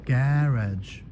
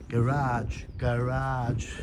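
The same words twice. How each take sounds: First: "Garage" with stress on the first syllable, GA-ridge, a touch louder; trying garage. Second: "Garage" with stress on the end, ga-RAHZH; trying American garage. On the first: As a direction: test out "Garage" British style. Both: Shown as a demonstration. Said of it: "practising pronunciations of garage".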